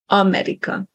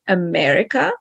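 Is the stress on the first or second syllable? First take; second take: first; second. First: The stress is on the first syllable. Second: The stress is on the second syllable. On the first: "stress on the first syllable, on the A" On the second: "in English, we say America"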